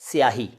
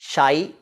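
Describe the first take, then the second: First: The word begins with a 's' plus 'y' sound. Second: The word begins with a plain 'sh' sound. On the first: The speaker calls it right. "स्याही वो शब्द है" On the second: The speaker calls it wrong. "उसको हम शाई बोलेंगे, तो वो तो इंसाफ नहीं होगा।"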